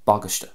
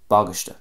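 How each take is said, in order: First: The stress falls on the start of the word. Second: The stress falls on the start of the word.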